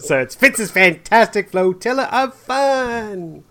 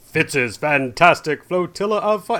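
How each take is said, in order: First: It is said in a Janice from Friends voice. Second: It is said in a deep announcer voice.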